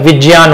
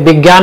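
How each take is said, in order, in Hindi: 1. संयुक्त अक्षर का उच्चारण j जैसी आवाज़ से होता है। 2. संयुक्त अक्षर का उच्चारण g जैसी आवाज़ से होता है। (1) "विज्ञान होता है" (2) "विज्ञान नहीं होता है"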